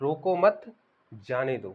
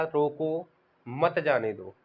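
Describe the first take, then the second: First: "रोको मत" as one raised phrase, pause, then "जाने दो" falling; pause after "मत". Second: "रोको" set apart, short pause, then "मत जाने दो" run together; pause after "रोको". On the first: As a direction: run "रोको मत" together, break, then drop on "जाने दो". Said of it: "विराम चिन्हों का प्रयोग यदि सही ढंग से". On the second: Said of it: "थोड़ी देर के लिए ठहरना". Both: Shown as a demonstration.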